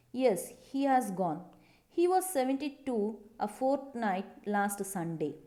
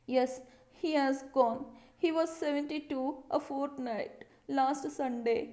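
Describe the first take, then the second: First: Said in the usual way. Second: Fussy, sniffing tone, a bit higher; a slightly higher, sniffy, fussed-over voice; sniffy and bothered. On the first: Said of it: "Like that she said". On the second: Shown as a demonstration. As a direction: read it like she's sniffing and put out. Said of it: "Like that she said with full of bother".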